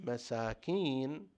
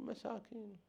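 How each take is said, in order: First: "مساكين" said slowly and stretched out, rising at the end; drawn-out pity. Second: "مساكين" said much higher and much softer, falling at the end; reproachful tone. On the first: Teacher showing the Imam's word as pity, slow and rising. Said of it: "مساكين بهالطريقة قد تعني". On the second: Teacher showing the word as a rebuke for hurrying, high and soft. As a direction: say "مساكين" high and hushed, chiding their haste. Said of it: "مساكين بطريقة أخرى يعني أنتم مستعجلين". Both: Shown as a demonstration.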